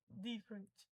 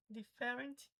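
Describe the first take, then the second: First: "different" stressed on the first syllable. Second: "Different" wrongly stressed as di-FÉ-rent. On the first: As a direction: say "different" as DIF-rent. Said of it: "Um entonei o di". ("different" com tônica no di) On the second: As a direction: hit the second syllable of "Different". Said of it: "o outro fé". ("Different" com tônica no fé) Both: Shown as a demonstration.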